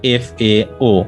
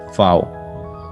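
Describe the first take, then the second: First: Each letter is said separately. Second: It is said as a single word. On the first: The speaker calls it wrong. "we are not pronouncing each letter like F A O" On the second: The speaker calls it right. "rather we say F A O"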